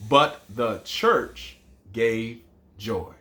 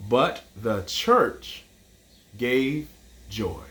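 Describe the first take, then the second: First: Even, slow repeat; slow recitation. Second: Slow, fading haiku line; slow recitation. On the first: Teacher repeating the last line slowly for counting. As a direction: say it whole, slow and steady. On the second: Teacher reciting the final haiku line slowly. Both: Shown as a demonstration. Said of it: "our first line was five".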